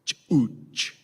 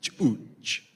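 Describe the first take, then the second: First: Chuch said slowly as "ooch", careful foreign vowel; Tzutuhil word. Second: Chuch said again as a short "oosh"; Tzutuhil word. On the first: Priest teaching the congregation a Tzutuhil word, slow careful demo. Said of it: "the word for baby in Tzutuhil is". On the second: Priest repeating the word after joking it sounds like Klingon. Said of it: "Tzutuhil sounds like Klingon". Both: Shown as a demonstration.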